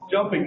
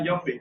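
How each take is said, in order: First: The word begins with a j sound. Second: The word begins with a y sound. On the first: The speaker calls it right. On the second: The speaker calls it wrong.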